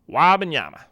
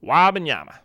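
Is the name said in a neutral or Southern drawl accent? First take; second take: Southern drawl; Southern drawl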